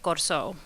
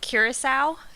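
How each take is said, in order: First: The name is said in the local Creole form. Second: The name is said with an American English pronunciation. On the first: "in a Portuguese Creole that is local to the island" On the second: "how I would say it in English or in American English"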